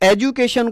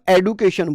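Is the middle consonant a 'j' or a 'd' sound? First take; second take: j; d. First: The middle consonant is a 'j' sound. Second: The middle consonant is a 'd' sound. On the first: This is the older British way. "तो British English में शेड्यूल और एजुकेशन बोला जाता था।" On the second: This is the newer modern way. "एजुकेशन को हम एडुकेशन बोलते हैं"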